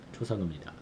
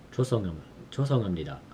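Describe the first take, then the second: First: Said in the usual way. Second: 죄송합니다 rushed at double speed; rapid practice. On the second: Shown as a demonstration. Learner drilling a polite apology, very fast. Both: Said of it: "making sure I say it right".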